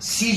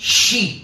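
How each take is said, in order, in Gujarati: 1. આ શબ્દ સાદા 's' અવાજથી શરૂ થાય છે. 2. આ શબ્દ 'sh' અવાજથી શરૂ થાય છે. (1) "બધા સી જ બોલે છે" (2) "ખરેખર તો શીખનારે શી બોલવું જોઈએ"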